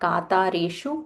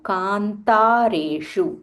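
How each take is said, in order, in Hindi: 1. 't' से पहले कोई 'n' ध्वनि सुनाई नहीं देती। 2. 't' से पहले एक स्पष्ट 'n' ध्वनि सुनाई देती है। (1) "not katareshu" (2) "that half na should be heard"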